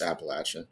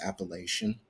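First: It uses the local regional pronunciation. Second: It uses the standard, formal pronunciation. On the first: This is how people in the region say it. "when you're there within the world, it's Appalachian" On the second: This is the formally correct way to say it. "if you want to really proper it, it's Appalachian"

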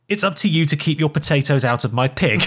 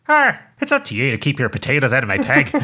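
First: It is said in a neutral accent. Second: It is said in a Northern Irish accent.

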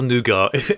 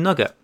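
First: The word is said in a posh-sounding way. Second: The word is said in a plain, everyday way.

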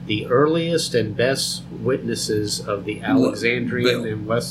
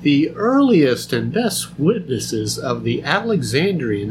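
First: It is read in his normal speaking voice. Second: It is read in a put-on scholarly voice.

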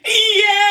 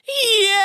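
First: It is shouted at full loudness. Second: It is shouted with held-back loudness.

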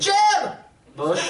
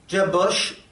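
First: The name is said excitedly, like an exclamation. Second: The name is said in a plain, flat way.

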